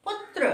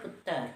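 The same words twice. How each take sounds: First: पुत्र with a tight tr cluster, no extra vowel; crisp पुत्र, t and r joined; correct putr. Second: पुत्र as puttar, doubled t with a vowel before r; casual puttar. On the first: Teacher giving class the correct पुत्र. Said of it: "लेकिन होता क्या है?". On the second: Teacher showing the everyday mispronunciation of पुत्र. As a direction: colloquial पुत्र, quick and loose. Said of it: "बोलचाल में हम लोग बोल देते हैं पुत्र". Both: Shown as a demonstration.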